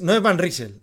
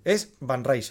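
First: Van Riesel said the Spanish way, louder, like correcting an audience; mocking wrong Van Riesel. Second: Van Riesel said the Dutch-English way, Van like fan and Riesel like rye-zel; plain corrective tone, a touch of show; corrected pronunciation. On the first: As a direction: say Van Riesel Spanish style, flat r and s as written. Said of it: "Señores". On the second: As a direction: give the correct Van Riesel as the proper version. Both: Shown as a demonstration.

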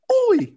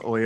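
First: "Oi!" squealed high in a hammed-up Cockney accent; a loud, high Cockney "Oi!" mocking Rey. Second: Said in the usual way. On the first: Mocking Rey's constant "oi" to friends, high hammed-up Cockney "Oi!". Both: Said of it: "She says "oi" everywhere".

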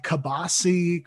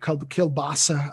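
First: "kibasi" as "keh-BAH-see", dropping the l; family pronunciation. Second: "kielbasa" said the usual way, keel-BAH-sah; standard pronunciation. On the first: Telling the host about her family's food, "kibasi" said the home way. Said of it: "We called it kibasi in my house". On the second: Correcting her family's word for the host, "kielbasa" said keel-BAH-sah. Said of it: "I guess people call it". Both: Shown as a demonstration.

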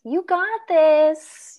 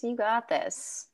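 First: Loud, drawn-out cheer. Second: Soft, slow reassurance; reassuring. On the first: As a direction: cheer her on slowly and loudly. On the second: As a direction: say it gently and slowly. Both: Real, not acted.

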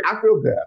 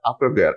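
First: Excited. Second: Said in the usual way. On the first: Real, not acted.

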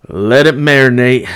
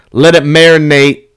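First: Said in the usual way. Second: Loud quote. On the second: Retold or imitated. Quoting the locker room.

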